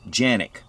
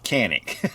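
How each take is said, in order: First: The name is pronounced the Turkish way. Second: The name is pronounced the English way. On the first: "pronounced in Turkish" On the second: "the English version of Canik"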